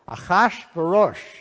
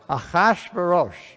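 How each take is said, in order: Both takes have the same delivery.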